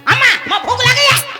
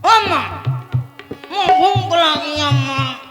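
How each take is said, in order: First: It is said harshly and rudely. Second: It is said sweetly and affectionately.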